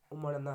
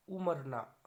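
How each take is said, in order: First: Said in the usual way. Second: उमरना with a plain 'r'; r for flap. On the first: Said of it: "होता है". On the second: Shown as a demonstration. Teacher showing ra-ra confusion, उमरना with simple r. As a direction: say 'umar-naa' for उमरना. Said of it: "ये गलत हो गया".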